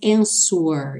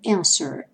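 First: A W sound is pronounced in the middle. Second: No W sound is pronounced in the middle. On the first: The speaker calls it wrong. "não falamos answer" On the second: The speaker calls it right. "e sim answer"

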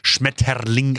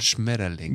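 First: The word is spat out in a harsh, aggressive way. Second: The word is said in a gentle, soft way. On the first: German is made to sound like a hard, brutal language. The speaker calls it wrong. "Und dann wird es halt extra so Schmetterling ausgesprochen" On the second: German can sound just as gentle as other languages. The speaker calls it right. "man kann es halt auch einfach ganz anders sagen"

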